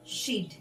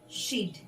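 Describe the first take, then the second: First: The words are shortened into one syllable. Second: The same.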